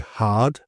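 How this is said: The R is silent and the vowel long. "non-rhotic we say hard"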